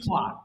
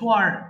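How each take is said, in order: First: A British accent, ending without an r sound. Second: An American accent, ending with an r sound. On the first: "আর যদি British বলেন" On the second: "যদি American বলেন তাহলে আর যুক্ত করবেন।"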